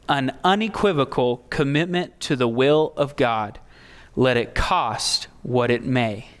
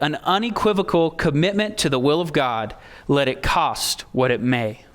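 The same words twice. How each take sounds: First: It is said more slowly. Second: It is said at a normal pace.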